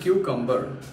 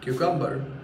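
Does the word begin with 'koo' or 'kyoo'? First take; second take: kyoo; kyoo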